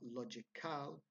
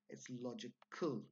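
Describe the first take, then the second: First: The last syllable has a fuller, clearer vowel. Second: The last syllable is a weak 'ul' sound. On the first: The speaker calls it wrong. "It's not logical" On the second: The speaker calls it right. "it's logical, ul"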